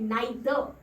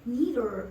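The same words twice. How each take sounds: First: British accent, the final r is dropped. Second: American accent, the final r is pronounced.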